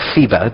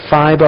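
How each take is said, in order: First: The first vowel sounds like 'ee'. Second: The first vowel sounds like 'eye'. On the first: "depends on which way you like to pronounce it" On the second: "depends on which way you like to pronounce it"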